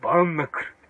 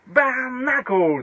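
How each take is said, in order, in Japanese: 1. 平板なカタカナの日本語の音で発音します。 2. 英語のような音で発音します。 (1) "もう完全にカタカナの英語になるの。" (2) "英語の発音いいでしょ？"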